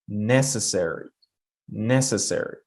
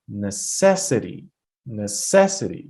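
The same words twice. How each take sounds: First: NECessary, stressed on NEC and falling away; stress on first syllable. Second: NeCESsity, stressed on CES; stress on second syllable. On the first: Teacher modelling the marked word, first-syllable stress on necessary. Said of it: "Look at the mark". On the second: Teacher showing the second word, second-syllable stress on necessity. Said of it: "I have to put the stress on the". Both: Shown as a demonstration.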